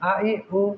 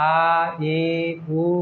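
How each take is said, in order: First: The vowels are short and quick. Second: The vowels are drawn out long. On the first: The speaker calls it right. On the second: The speaker calls it wrong.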